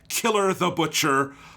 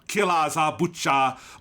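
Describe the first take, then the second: First: It is said with plain English pronunciation. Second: It is said with Japanese-style pronunciation.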